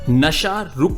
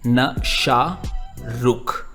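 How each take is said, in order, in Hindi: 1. यह वाक्यांश एक इकाई के रूप में सहजता से बोला जाता है। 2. यह वाक्यांश अलग-अलग अक्षरों में तोड़कर बोला जाता है।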